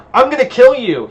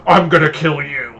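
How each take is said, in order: First: High, loud growl of a threat. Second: Imitating a vampire's growly threat; mock growly voice. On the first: A narrator's reading. Vampire threatens the woman who impaled him, growling loudly. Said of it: "he growls out". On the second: Hunter mimics the vampire's threat back at him, mock growling. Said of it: "I imitate his growly accent".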